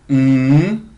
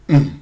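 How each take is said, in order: First: The hum's pitch rises from low to high. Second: The hum is held on a low pitch. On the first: "c'est le ton montant ... se mime mm" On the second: "c'est le ton bas ... se mime hum"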